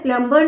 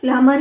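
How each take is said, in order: First: The b sound in the middle is pronounced. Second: The b sound in the middle is silent. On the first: The speaker calls it wrong. "प्लम्बर नहीं होता है" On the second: The speaker calls it right. "बहुत silent है"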